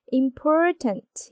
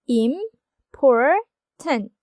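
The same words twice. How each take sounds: First: Important said slowly with the second syllable por hit hardest; important, lean on the middle syllable por; stress on por. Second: Important stretched very slowly into three syllables; drawn-out syllables. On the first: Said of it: "액센트는 두 번째 음절인 for에 있기 때문에". (important를 천천히, 두 번째 음절 por를 강하게) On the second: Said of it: "이렇게 삼 음절로 이루어져 있죠". (important를 아주 천천히 늘여서 음절별로) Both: Shown as a demonstration.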